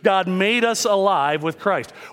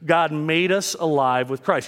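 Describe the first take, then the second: First: It is said with more gusto and energy. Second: It is said with ordinary, calm energy.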